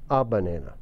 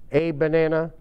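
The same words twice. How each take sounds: First: "a" said as a short "uh" before "banana". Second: "a" said as "ay" before "banana"; long a. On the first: Teacher showing students a short "a" before banana. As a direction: swallow the "a" into "uh banana". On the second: Teacher showing students a long "a" before banana. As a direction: say "a" like the letter, "ay banana". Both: Shown as a demonstration. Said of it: "A su gusto".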